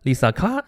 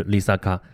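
First: 丽萨卡 with the last syllable rising up high; rising final tone. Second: 丽萨卡 said with every syllable on a low level tone; all low tones. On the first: Lecturer demonstrating the rising-tone 丽萨卡, meaning promise. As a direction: lift the end of 丽萨卡 into a clear rise. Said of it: "如果后边升起来呢". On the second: Lecturer demonstrating the low-tone 丽萨卡, meaning puddle. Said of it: "如果全是低音". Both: Shown as a demonstration.

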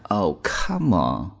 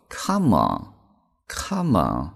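First: Oh, come on, with the come rising in doubt; disbelieving tone. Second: Said in the usual way. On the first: Shown as a demonstration. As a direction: say it like you don't buy it. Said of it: "大家注意这个语气啊". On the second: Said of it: "非常简单的词组叫做".

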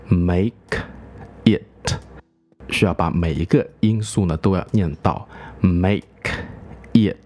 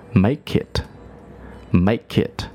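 First: "make" and "it" kept apart, each sound spoken; slowly, every sound of "make it"; slow motion. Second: "make it" run together as "makeit"; linked together. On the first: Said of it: "如果慢速来念呢". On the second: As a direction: link "make" into "it", no gap. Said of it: "通常是连读". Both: Shown as a demonstration.

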